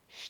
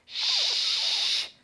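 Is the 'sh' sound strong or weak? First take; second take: weak; strong. First: The hiss is weak and lacks force. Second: The hiss is strong and forceful. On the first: The diaphragm is weak. The speaker calls it wrong. "Diyafram zayıfsa şş, şş diye çıkacak" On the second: The diaphragm is strong. The speaker calls it right. "güçlü çıkartılması gerek"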